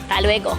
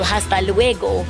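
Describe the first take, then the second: First: Some sounds in the words are dropped or softened. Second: Every sound in the words is pronounced fully. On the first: "And here it goes" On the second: "the Latin American way where you pronounce the words in full"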